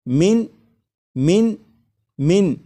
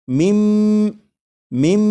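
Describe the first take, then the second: First: The word ends with a clear n sound. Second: The n merges into a nasalized m sound. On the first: "जैसे ये लिखा हुआ है" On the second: "नून साकिन की आवाज़ फिर नहीं आएगी, बल्कि मीम के बाद मीम की आवाज़ आएगी और यहाँ पर गुन्ना भी करेंगे"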